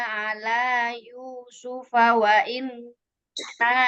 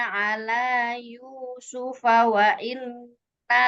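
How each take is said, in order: The two takes are said the same way.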